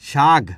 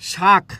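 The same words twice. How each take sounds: First: The word ends with a voiced g sound. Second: The word ends with a voiceless k sound. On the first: "এটা কি হয়েছে ঘোষ ধ্বনি" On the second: "কটা হচ্ছে অঘোষ ধ্বনি"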